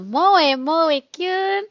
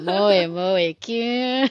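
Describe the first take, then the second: First: It is said in a cute, high voice. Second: It is said in a deep, husky voice.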